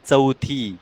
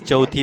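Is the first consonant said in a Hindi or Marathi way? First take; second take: Marathi; Hindi. First: The first consonant is a Marathi-style ch sound. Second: The first consonant is a Hindi-style ch sound. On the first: The speaker calls it right. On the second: The speaker calls it wrong.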